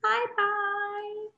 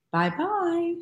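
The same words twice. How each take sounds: First: Much higher, softer little goodbye; tiny baby bear voice. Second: Higher motherly goodbye; Mama Bear voice. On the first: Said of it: "how about a baby bear". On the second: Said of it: "what would a Mama Bear sound like". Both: Shown as a demonstration.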